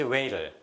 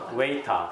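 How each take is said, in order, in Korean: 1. 미국식 억양으로 발음해요. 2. 영국식 억양으로 발음해요. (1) "미국식 시작" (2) "영국식 시작"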